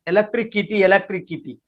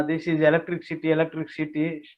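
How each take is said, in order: First: Electricity dicho como "elektrikiti", con k en vez de s; mispronounced electricity. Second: "electricity" with a clear s, "elektrisiti"; correct electricity. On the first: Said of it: "she was pronouncing". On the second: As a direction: stress the s sound in "electricity". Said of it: "she complains". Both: Retold or imitated.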